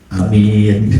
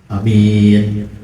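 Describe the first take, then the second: Both takes have the same delivery.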